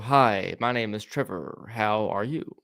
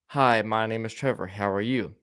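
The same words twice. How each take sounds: First: It is spoken with a drawn-out, song-like melody. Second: It is spoken in a plain, ordinary tune. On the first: "I carried a cadence to a song" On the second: "Instead of saying it lo like that"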